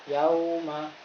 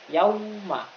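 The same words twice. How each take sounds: First: The word is said lightly and softly. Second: The word is said with heavy pressure. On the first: The speaker calls it right. "Tapi yauma, kayak gitu" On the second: The speaker calls it wrong. "bukan yauma. Nggak boleh"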